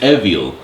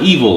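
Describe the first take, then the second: First: It is said with a Japanese-style pronunciation. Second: It is said with a plain English pronunciation.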